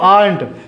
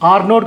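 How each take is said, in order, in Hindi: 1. यह एक छोटे, संक्षिप्त शब्द की तरह बोला जाता है। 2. यह दो अलग-अलग पूरे शब्दों की तरह बोला जाता है।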